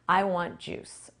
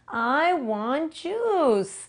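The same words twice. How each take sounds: First: It is said in a normal, ordinary voice. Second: It is said in an exaggerated, silly voice. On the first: The speaker calls it right. "in a regular voice" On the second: The speaker calls it wrong. "we kind of play a silly game"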